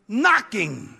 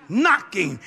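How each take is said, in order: Both takes have the same delivery.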